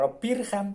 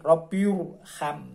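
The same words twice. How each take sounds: First: The r is pronounced thin and light. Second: The r is pronounced thick and heavy. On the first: The speaker calls it wrong. "ora Robbirham" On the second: The speaker calls it right.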